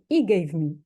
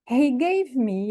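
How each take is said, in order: First: The h sound at the start is dropped. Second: The h sound at the start is pronounced. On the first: The speaker calls it wrong. "here we cannot say" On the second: The speaker calls it right. "in initial position or at the beginning of the sentence, they keep the her"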